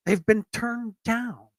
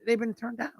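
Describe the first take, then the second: First: "They've been turned down" drawn out slowly, higher; emphatic repeat. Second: Said in the usual way. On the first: Real, not acted. Host on storm victims refused aid, slow emphatic "They've been turned down".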